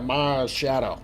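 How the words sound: It is said in a thick Boston accent.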